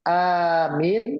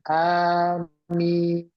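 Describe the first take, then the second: First: The first vowel is long. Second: Both vowels are long. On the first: One who gives security. "a-nya panjang" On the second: Please grant it, O God. "A-nya panjang, mimnya panjang"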